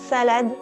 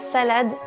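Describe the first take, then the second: First: The s whistles, tongue pushed past the teeth. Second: The s is a clear, normal hiss.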